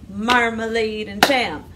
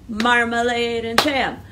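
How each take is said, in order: The two takes are said the same way.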